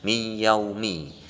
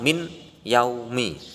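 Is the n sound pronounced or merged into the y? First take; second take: merged; pronounced. First: The n merges into the following y. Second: The n is pronounced clearly before yaumi. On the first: This is how it is recited. "tapi cara bacanya mi yaumi" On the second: This is how it is written. "Tulisannya tetap min yaumi"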